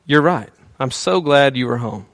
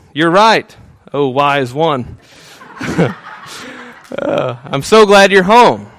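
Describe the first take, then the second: First: Said in the usual way. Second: Hammed-up adoring wife. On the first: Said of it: "Or she could possibly think". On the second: Husband playing his wife's ideal answer, hammed-up gushing praise. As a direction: lay the flattery on thick, slowing on oh wise one.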